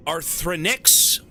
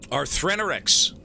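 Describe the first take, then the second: First: Arthrenix said slowly with a questioning rise; unsure name attempt. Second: Arthrenorix said firmly with a falling end; name attempt. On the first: Reading a donor's name aloud, unsure of it. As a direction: try Arthrenix tentatively, rising at the end. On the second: Second try at a donor's name, settling it. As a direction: land on Arthrenorix as a confident guess. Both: Shown as a demonstration. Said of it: "I'm gonna butcher your name".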